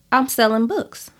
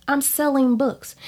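First: Said in the usual way. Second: "selling" stressed, pitched higher with a firm fall; keeping it real. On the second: Shown as a demonstration. Insisting to her listeners that her books sell, stress on "selling". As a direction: lean into "selling" like you mean it. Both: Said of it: "I'm gonna keep it real".

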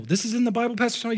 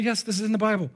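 First: High, incredulous listener's question; mock astonished churchgoer; surprised question. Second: Higher-pitched assured answer, falling at the end; emphatic yes, settling downward; firm confirmation. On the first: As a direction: ask the pastor in raised-pitch disbelief. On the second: Acted. Pastor answers the imagined question.

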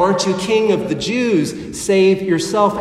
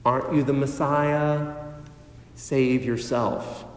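First: Louder jeering taunt, pushing at the end; loud mocking. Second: Low, soft sneering taunt; quiet ridicule. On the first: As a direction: shout the mockery up at him. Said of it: "The soldiers mock him". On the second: Retold or imitated. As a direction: taunt him quietly, with contempt. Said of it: "ridicule him".

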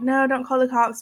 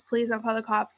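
First: Said in the usual way. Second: Much softer, begging please; softly begging the doctor not to call the police; quiet plea. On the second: Retold or imitated. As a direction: drop to a near-hushed plea.

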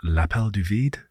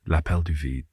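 First: "L'appel du vide?" asked with a rising tune on "vide"; questioning rise. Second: "L'appel du vide." settled, with a falling tune and the weight on "L'appel"; "L'appel du vide." stated firmly, dropping at the end; confident fall. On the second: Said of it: "Yeah, the call of the void". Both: Shown as a demonstration.

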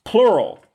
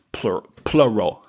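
First: "Plural" said carefully, both syllables clear, high then falling; corrected pronunciation. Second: Slurred Southern "plural", vowels run together; southern accent. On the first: Shown as a demonstration. Host correcting an accent slip to listeners, careful high "Plural". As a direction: pitch "Plural" up and pronounce it cleanly. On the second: Real, not acted. Apologizing to listeners as the Southern accent slips out on "plural". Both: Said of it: "my southern accent comes out".

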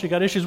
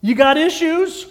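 First: Said in the usual way. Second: High, loud, ringing call of the catchphrase; preacher's catchphrase. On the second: Shown as a demonstration. Preacher declaring his catchphrase to the congregation, loud and high. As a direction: sing it out big like a punchline. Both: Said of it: "do you know what I say?".

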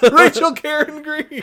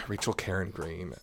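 First: High, loud triumphant blurt; loud then suddenly hushed. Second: Low, soft repeat of the name; hushed after being loud. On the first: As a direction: shout the name out in triumph. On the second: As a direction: say it quietly, reined in. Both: Real, not acted. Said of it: "Sorry, I'm being loud".

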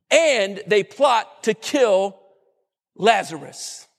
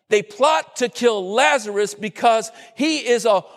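First: A preacher landing the shock; dramatic pause. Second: Said in the usual way. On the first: Shown as a demonstration.

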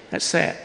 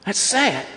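First: Much softer, sadly dropping away; soft sorrowful echo; hushed repeat. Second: Said in the usual way. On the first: Real, not acted. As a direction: let it fall to a near hush. Preacher repeats lament, softer.

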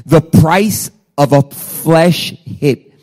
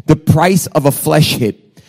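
First: Drawn out, word by weighty word; slow emphatic repeat. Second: Said in the usual way. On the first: Real, not acted. Preacher repeating the sermon title to the congregation, slow and emphatic. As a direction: spell out the title slowly, leaving space between words.

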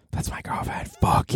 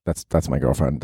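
First: Unvoiced whispered aside; hushed conspiratorial whisper. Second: Said in the usual way. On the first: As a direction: whisper it like a secret to listeners. Repeats claim as whispered aside.

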